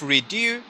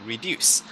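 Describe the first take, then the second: First: The final s sound is left off. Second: The final s sound is clearly pronounced. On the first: The speaker calls it wrong. "instead of redo" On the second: The speaker calls it right. "reduce with a s at the end"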